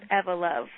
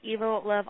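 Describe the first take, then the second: First: Evo begins with the same sound as evolution. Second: Evo begins with a different sound from evolution. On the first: This is the name as the band says it. The speaker calls it right. "we pronounce it Evo Love, like evolution" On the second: This is the name as others commonly say it. The speaker calls it wrong. "We do get called [name] all the time"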